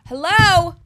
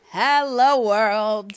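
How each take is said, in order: First: High, loud, thrilled call out; loud giddy hello; excited shout. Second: Loud, high, joyful greeting to the world; loud giddy hello world; excited shout. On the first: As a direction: call out like greeting the whole world. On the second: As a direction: belt it out to everyone. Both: Pretend. Dreaming of worldwide fame.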